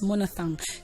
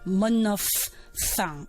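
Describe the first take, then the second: First: The word is said without an f sound. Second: The word is said with an f sound. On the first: The speaker calls it wrong. "there is a sound missing in that pronunciation, and that is the f sound" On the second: The speaker calls it right. "So you rather say monophthong"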